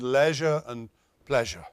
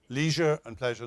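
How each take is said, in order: First: Leisure has the same first vowel as pleasure. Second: Leisure has a different first vowel from pleasure. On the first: "in British English, they rhyme" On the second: "not so much"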